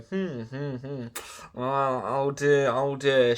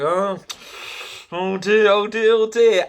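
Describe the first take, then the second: First: Slow, pondering mechanic hums, lightly voiced; imitating baffled mechanics stroking their beards; mock puzzled mechanics. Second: Higher, louder mock oh dear; mock mechanics getting more worried; hammed-up alarmed mechanics. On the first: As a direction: drag out the hmms and tut oh dear, slowly. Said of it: "looking at each other going". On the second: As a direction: ham up the mechanics' alarm, rising each time. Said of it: "and they're going".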